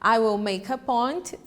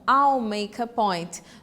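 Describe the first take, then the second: First: The word will is said in full. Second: Will is reduced and joined onto I. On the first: "forma estendida" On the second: "forma abreviada"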